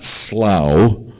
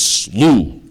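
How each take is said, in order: First: The vowel rhymes with cow. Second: The vowel rhymes with through. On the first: The speaker calls it wrong. "It's not slough, like a cow" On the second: The speaker calls it right. "It's slough, like through"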